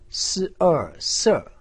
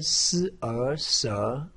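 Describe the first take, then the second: First: The pitch falls sharply from high to low. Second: The pitch rises from middle to high. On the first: "四声" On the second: "二声"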